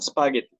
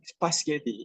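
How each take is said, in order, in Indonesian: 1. Bunyi s ada di awal kata. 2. Bunyi s bergeser ke belakang dalam kata. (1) "instead of spaghetti" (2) "kept saying spaghetti"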